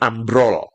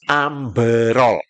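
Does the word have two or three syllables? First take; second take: two; three. First: It is said with two syllables, no extra vowel. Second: It is said with three syllables, an added vowel. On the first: This is the Indonesian form. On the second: This is the Malaysian form.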